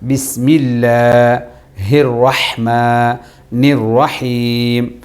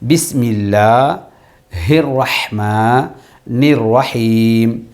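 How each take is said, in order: First: It is said smoothly without breaks between pieces. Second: It is broken into separate pieces with pauses.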